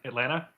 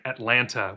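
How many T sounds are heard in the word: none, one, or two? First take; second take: one; two. First: Only the first T sound is pronounced. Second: Both T sounds are clearly pronounced. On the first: The speaker is a younger local. "Second T drops" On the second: The speaker is not from the South. "you end up pronouncing it Atlanta, which is monstrous and incorrect"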